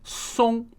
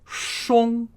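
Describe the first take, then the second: First: The word begins with an s sound. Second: The word begins with an sh sound. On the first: The speaker calls it right. "S without the H sound" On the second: The speaker calls it wrong. "not an S H. So not shong"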